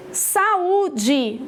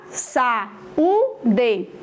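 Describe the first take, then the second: First: Said in the usual way. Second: "saúde" split into three syllables, sa-ú-de. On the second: Shown as a demonstration. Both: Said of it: "Vou separar".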